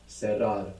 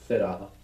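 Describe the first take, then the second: First: It is said in a non-Spain Spanish accent. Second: It is said in a Spain Spanish accent.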